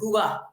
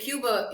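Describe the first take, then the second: First: It is said the local Cuban way. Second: It is said the American English way. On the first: This is how it is said when abroad, like the locals. "but when I'm awake, I say Cuba because they don't say Cuba" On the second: This is how it is said at home in the United States. "I say Cuba in the in, in the United States"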